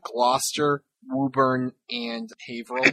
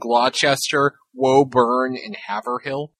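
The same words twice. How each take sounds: First: The town names are said the local way. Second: The town names are said an outsider's way. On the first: This is how people who live there say them. The speaker calls it right. "there's towns around me like" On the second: This is how people in movies say them. The speaker calls it wrong. "They always pronounce them"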